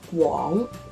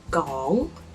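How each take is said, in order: First: The word starts with a rounded gw sound. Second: The word starts with a plain g sound. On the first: The speaker calls it right. "pronounce the character in a very standard way" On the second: The speaker calls it wrong. "If you say it wrongly, it becomes Gong"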